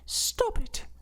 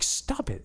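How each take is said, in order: First: It is said in a silly, mocking put-on voice. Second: It is said in a plain, normal voice.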